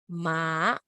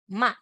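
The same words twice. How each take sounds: First: The pitch rises through the syllable. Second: The pitch falls sharply through the syllable.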